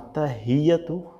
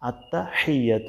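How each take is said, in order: First: The h is a light, plain breathy sound. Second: The h is pressed from the middle of the throat. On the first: The speaker calls it wrong. "গোল হাঁটা দিয়ে না হয়" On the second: The speaker calls it right. "গলার মাঝখান থেকে চাপ দিয়ে বলতে হয়"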